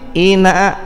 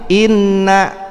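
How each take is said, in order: First: The n is single and short. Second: The n is doubled without a nasal hold. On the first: "hilang tasdid" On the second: "pasang tasdid"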